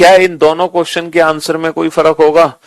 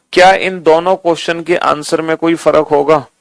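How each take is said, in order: No difference in how they are said.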